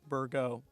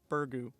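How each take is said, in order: First: The word ends with a short 'oh' sound. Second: The word ends with a long 'oo' sound.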